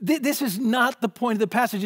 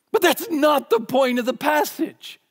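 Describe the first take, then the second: First: Said in the usual way. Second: Much higher and louder, almost singing it out; emphatic rebuttal. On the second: Real, not acted. Preacher to congregation, a loud high rebuttal. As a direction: hammer home that it misses the point. Rejecting a wrong interpretation.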